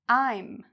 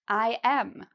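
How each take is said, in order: First: It is shortened into one syllable. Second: It is said as two full syllables. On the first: "We actually shorten this into a contraction" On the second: "This is pronounced just like the letter M"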